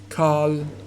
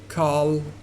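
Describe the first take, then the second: The two takes are said the same way.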